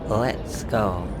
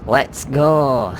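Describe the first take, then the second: First: It is said flatly, without much enthusiasm. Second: It is said with more enthusiasm.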